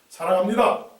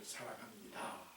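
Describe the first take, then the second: First: It is said curtly, in a flat blunt tone. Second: It is said softly, with deep heartfelt emotion. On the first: The words carry no real feeling. The speaker calls it wrong. "이렇게 퉁명스럽게" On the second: The love is passed from heart to heart. The speaker calls it right. "성숙하고 감동이 있고 때로는 가슴이 뭉클하고"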